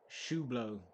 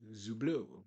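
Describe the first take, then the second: First: The name starts with an sh sound. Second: The name starts with a z sound.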